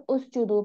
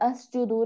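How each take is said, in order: First: The word begins with a u vowel. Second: The word begins with an a vowel. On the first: The speaker calls it right. "उस जुदू पढ़ेंगे" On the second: The speaker calls it wrong. "नहीं पढ़ेंगे"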